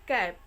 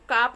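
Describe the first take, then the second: First: The vowel is a short flat 'a' sound. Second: The vowel is a long open 'aa' sound. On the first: The speaker calls it right. "इसको हम पढ़ेंगे कैप" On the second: The speaker calls it wrong. "इसको काप नहीं पढ़ेंगे"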